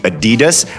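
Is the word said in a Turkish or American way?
American. It is said the American way.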